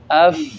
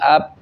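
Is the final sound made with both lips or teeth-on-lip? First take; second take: teeth-on-lip; both lips. First: Upper teeth touch lower lip with escaping breath. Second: Both lips close fully with no escaping breath. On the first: The speaker calls it right. "Kalau itu tepat makhrajnya pasti bunyinya keluar hambasnya" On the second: The speaker calls it wrong. "Tapi kalau nggak tepat jadi ap. Bibirnya yang rapat"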